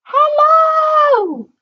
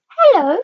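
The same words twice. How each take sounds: First: Very high, squeaky little shout; tiny character shouting. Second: High-pitched little character voice. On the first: Mister Small trying to be noticed from below, tiny high shout. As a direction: yell it in a tiny, very high voice, drawn out. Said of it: "shouted at the top of his voice". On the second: Mister Small greeting a tall stranger, high little voice. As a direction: pipe up, high and fairly loud. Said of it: "he heard a little voice". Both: A narrator's reading.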